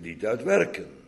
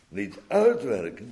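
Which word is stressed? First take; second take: werken; uit. First: The stress falls on the word werken. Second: The stress falls on the word uit. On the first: Salvation comes from grace, not from works. "Eerst is het niet uit werken, maar uit genade" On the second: Works are not the source but the goal. "daarna moeten wij eigenlijk de klemtoon in de zin verleggen"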